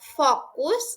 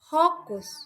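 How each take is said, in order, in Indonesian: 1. Diawali dengan bunyi F. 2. Diawali dengan bunyi H.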